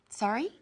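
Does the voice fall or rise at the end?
rise. The voice rises at the end, questioning.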